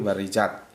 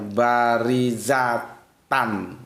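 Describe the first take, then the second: First: The word ends cut short on a bare 't'. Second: The word ends with a full 'tan' ending. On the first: The reader stops on this word. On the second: The reading continues without stopping.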